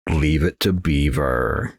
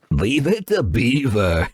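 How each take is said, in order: First: Slow, drawn out with a rising lilt; odd drawn-out line. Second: Slow, laughing through the words; laughing repeat. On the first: Gamer blurting a TV title, slow and sing-song. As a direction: stretch it out in a strange sing-song. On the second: Gamer repeating the odd line to himself, laughing. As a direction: chuckle while saying it. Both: Pretend. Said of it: "Why did I say it like that?".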